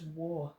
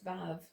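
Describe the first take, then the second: First: The word begins with a W sound. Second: The word begins with a V sound. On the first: This is the original ancient name. "it would have been a W sound" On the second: This is the modern Israeli Hebrew name. "it is Vav in modern day Israeli Hebrew"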